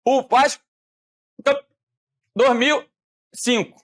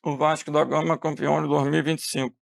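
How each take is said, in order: First: Words cut off like a breaking call; choppy, syllables missing. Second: Quieter, lower, smeared words like late-arriving audio; garbled delayed call. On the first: Teacher imitating a voice call that loses syllables, choppy and broken. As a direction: drop syllables as if the connection fails. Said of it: "se eu falar assim". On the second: Teacher showing how horrible late-arriving syllables would sound, quieter and smeared. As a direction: mumble it like syllables arriving out of order. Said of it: "horrível seria se eu falasse assim". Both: Shown as a demonstration.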